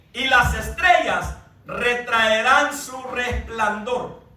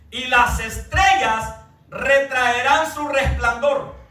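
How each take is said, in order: No difference in how they are said.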